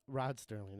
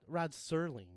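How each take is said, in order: First: The surname is said with a T sound. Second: The surname is said without a T sound. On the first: The speaker calls it wrong. "not Sterling" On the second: The speaker calls it right. "Rod Serling, not Sterling"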